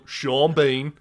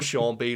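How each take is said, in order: First: The name is said in a Sheffield accent. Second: The name is said in a neutral accent.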